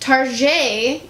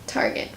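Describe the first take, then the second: First: The name is said with a fancy pronunciation. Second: The name is said with a plain pronunciation.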